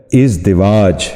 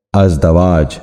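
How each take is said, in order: First: ازدواج with two short "i" sounds: iz-di-waaj; correct pronunciation. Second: ازدواج wrongly said az-da-waaj; mispronunciation. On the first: Teacher modelling for viewers the correct ازدواج, iz-di-waaj. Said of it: "درست تلفظ ہے". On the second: Teacher showing viewers the common error, ازدواج mispronounced as az-da-waaj. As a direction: say ازدواج with "a" in both short syllables, az-da-waaj. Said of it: "جو غلط تلفظ ہے". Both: Shown as a demonstration.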